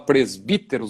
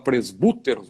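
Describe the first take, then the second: First: The second vowel is a spread 'ee' sound. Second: The second vowel is a back 'oo' sound. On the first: "a gente fala presbíteros" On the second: "ou fala presbúteros"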